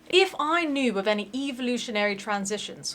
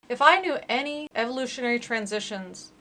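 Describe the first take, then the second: First: It is said in a put-on British accent. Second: It is said in the speaker's ordinary accent.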